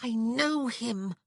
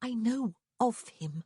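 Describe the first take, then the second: First: High, slow, heated insistence; hot, urgent emphasis on "know". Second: Calmer correction, lingering on "of"; measured, with stress on OF; a bit calmer. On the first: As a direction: insist on it hotly, drawing out KNOW. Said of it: "she whispered hotly". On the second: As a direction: amend it slowly, leaning on the word "of". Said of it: "a bit calmer". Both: A narrator's reading.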